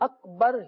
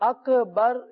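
First: The k is held still without a bounce. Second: The k has an echoing bounce after it. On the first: The speaker calls it right. "اب اس میں اکبر ہی ادائیگی ہونی چاہیے" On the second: The speaker calls it wrong. "کاف میں کلکلہ ہو جائے، سکون ہل جائے، تو ایسا نہیں ہونا چاہیے"

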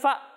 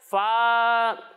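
First: The syllable is cut off with a jerk. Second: The vowel is stretched out long. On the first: "جھٹکا دے کر فا یہ بھی نہیں" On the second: "اسے کھینچ کر فا نہیں پڑھنا"

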